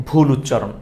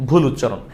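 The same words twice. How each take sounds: The two takes are said the same way.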